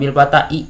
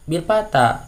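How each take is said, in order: First: An extra short 'i' syllable follows the final vowel. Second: The phrase ends on a plain long 'a' vowel. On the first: The speaker calls it wrong. "bukan bil fata'i" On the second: The speaker calls it right. "Kok ini al bil fata"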